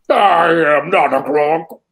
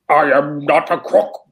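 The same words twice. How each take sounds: First: It is said with sassy, funky attitude. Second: It is said plainly, without extra attitude.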